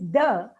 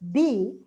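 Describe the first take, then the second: First: The word ends in a short uh vowel. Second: The word ends in a long ee vowel. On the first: It comes before a word starting with a consonant. "it is the when it's followed by a consonant" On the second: It comes before a word starting with a vowel. "It is D with a E. D when it is followed by a vowel"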